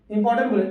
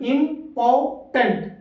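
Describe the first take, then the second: First: Said in the usual way. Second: इंपॉर्टेंट drawn out very slowly in three beats; syllable by syllable. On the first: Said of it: "कितने बार बोला". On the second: Shown as a demonstration. Teacher slowly sounds out इंपॉर्टेंट to count syllables. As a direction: pull इंपॉर्टेंट apart into its syllables. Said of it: "कितने बार बोला? तीन बार बोला".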